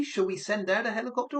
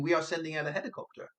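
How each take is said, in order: First: Pitched higher, "helicopter" rising into a question; question intonation. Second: Brisk, level delivery through "helicopter"; statement intonation. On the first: Unsure caller hears operator asking, questioning. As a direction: ask it with a lift on "helicopter". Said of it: "are they asking me". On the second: Unsure caller hears operator announcing, as a statement. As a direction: say "sending out a helicopter" quickly as fact. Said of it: "or are they saying". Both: Shown as a demonstration.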